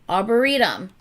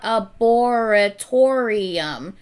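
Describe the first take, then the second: First: The word ends with a short 'tum' sound. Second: The word ends with a longer 'torium' sound. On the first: The speaker calls it right. "Arboretum, not arboretorium" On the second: The speaker calls it wrong. "not arboretorium"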